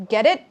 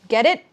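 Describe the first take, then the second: Both takes have the same delivery.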